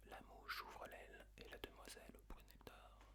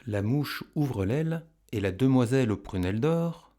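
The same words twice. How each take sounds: First: Barely audible whisper; whispered echo. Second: Said in the usual way. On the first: Shown as a demonstration. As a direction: whisper the verse as a prompt for pupils. Whispered echo in pupils' turn.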